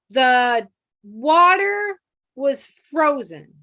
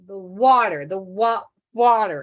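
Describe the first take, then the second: First: Very slow, each word drawn out; slow sounding out. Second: "water" broken apart then said whole; sounding out water. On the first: A hearing kid sounding out words as he writes, slowly. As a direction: spell it out aloud slowly like a child writing. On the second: A child sounding out "water" while writing it, halting. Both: Shown as a demonstration. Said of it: "you sound it out as you write it".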